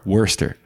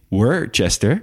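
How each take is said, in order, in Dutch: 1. Het woord wordt met twee lettergrepen uitgesproken. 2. Het woord wordt met drie lettergrepen uitgesproken. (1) "maar Worcester" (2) "Het is niet Worcester"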